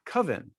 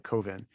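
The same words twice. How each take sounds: First: "Coven" as CUV-en, rhyming with oven; short-U coven. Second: "Coven" as COH-ven, unlike oven; long-O coven. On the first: Someone correcting the filmmaker, "Coven" said like oven. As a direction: say "Coven" with the vowel of love. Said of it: "Well, it's not pronounced". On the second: Filmmaker avoiding the oven rhyme, "Coven" with a long O. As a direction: say "Coven" with the O of cove. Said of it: "that sounds like oven". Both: Retold or imitated.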